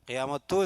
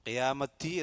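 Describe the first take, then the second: First: The word ends with a tu sound. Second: The word ends with a ti sound. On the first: "എന്ന് പറയാൻ പാടില്ല" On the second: "എന്നല്ല"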